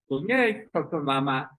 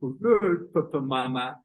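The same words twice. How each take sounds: First: Big sister with top jaw pushed out; mouth-distorted bedtime call; lightly acted odd-jawed sister; upper jaw forward. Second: Little brother with jutting chin; acted odd-jawed small brother; chin forward. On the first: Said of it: "the upper jaw is forward". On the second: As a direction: bedtime call through a thrust-out jaw. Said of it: "the chin is forward".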